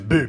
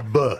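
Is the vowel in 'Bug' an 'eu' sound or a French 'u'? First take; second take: French u; eu sound. First: The vowel is a rounded French 'u'. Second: The vowel is an open 'eu' sound. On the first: The speaker calls it right. "ça se prononce bu" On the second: The speaker calls it wrong. "pas B"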